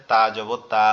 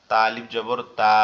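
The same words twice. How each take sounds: First: Said in the usual way. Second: Final "তা" stretched out very long; long vowel. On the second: Shown as a demonstration. Teacher drills alif after zabar, last "তা" held long. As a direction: spell it evenly, then hold "তা".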